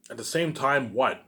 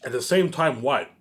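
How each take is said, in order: Both takes have the same delivery.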